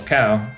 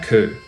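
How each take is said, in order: First: The vowel is an ow diphthong. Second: The vowel is a pure oo sound. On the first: The speaker calls it wrong. "instead of saying" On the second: The speaker calls it right. "which becomes o in Scottish English"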